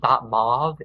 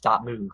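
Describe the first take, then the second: First: The vowel sounds like 'oh', rhyming with 'stove'. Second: The vowel sounds like 'oo', rhyming with 'groove'. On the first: The speaker calls it wrong. "it's not it's not dot mauve" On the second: The speaker calls it right. "it's dot move because you don't say mauve, it's a movie"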